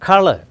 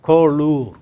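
First: The last syllable has a weak 'er' vowel. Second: The last syllable has a full 'oor' vowel. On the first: It is said the way it is normally spoken. "and you pronounce color" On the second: It is read as it is spelled. "you write C-O-L-O-U-R"

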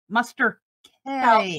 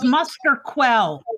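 First: The 'qu' is sounded as a plain 'k'. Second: The 'qu' is sounded as 'kw'. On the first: "if you're French, it's probably Muster K" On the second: "It's Muster Quell"

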